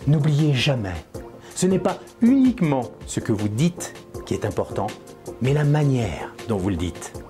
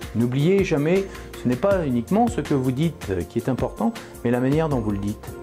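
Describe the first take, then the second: First: It is said expressively, with strong conviction. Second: It is said in a flat, monotone voice.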